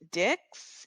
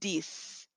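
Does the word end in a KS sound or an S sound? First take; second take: KS sound; S sound. First: The word ends with a KS sound. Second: The word ends with an S sound. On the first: The speaker calls it wrong. "We're not saying dix or deeks" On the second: The speaker calls it right. "it's making more of a S sound. We're not saying the X"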